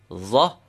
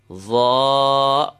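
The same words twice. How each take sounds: First: Dha cut short, ah not held; short letter sound. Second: Dha with the ah pulled long and level; extended letter sound. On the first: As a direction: give Dha one brief back ah. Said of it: "initial sound of the letter". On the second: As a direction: pull dha out on a sustained back ah. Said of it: "speaking of the extension". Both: Shown as a demonstration.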